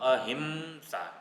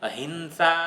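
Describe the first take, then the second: First: The nasal before the h sounds like m. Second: The nasal before the h sounds like n. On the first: The speaker calls it right. "અહિંસા મકાર" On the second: The speaker calls it wrong. "અહિંસા શબ્દ નથી બોલવાનો"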